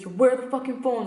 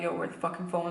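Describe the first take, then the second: First: It is yelled loudly and aggressively. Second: It is said in a calmer, milder voice.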